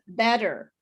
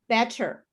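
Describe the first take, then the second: First: The middle consonant is a soft D sound. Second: The middle consonant is a hard T sound. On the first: "the second one is better" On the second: "first I'll say it with the T sound"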